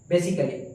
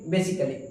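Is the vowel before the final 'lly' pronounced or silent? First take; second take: silent; silent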